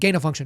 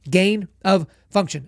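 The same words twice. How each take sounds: First: It is said fast, blurring into 'gainer function'. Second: It is said carefully with a clear separate 'of'. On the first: The speaker calls it wrong. "when people say it fast, it sounds like" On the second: The speaker calls it right. "but it's"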